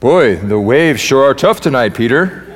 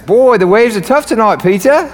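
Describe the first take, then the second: First: It is said in his ordinary accent. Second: It is said in an Australian-sounding accent.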